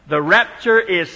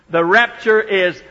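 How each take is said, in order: No difference in how they are said.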